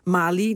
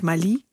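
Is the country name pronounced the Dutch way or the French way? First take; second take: Dutch; French. First: The name is pronounced with Dutch sounds. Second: The name is pronounced with French sounds. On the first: "de Nederlandse uitspraak" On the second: "niet Mali"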